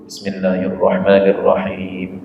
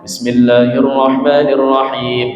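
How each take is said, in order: First: It is recited in a softer, quieter voice. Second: It is recited in a full, loud voice.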